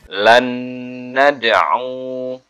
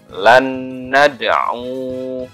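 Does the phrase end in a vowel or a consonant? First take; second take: consonant; consonant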